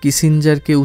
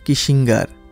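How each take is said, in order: First: The middle consonant is a soft j sound. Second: The middle consonant is a hard g sound. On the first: "mister কিসিঞ্জারকে" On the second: "উচ্চারণ করতেন কিসিঙ্গার"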